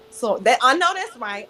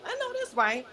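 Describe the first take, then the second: First: Said in the usual way. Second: Repeated much higher and softer; light high-pitched echo of approval; playful repeat. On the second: Real, not acted. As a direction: echo it up high, half to yourself.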